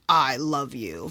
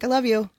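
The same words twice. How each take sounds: First: It is said in a serious, intense way. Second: It is said in a casual, offhand way.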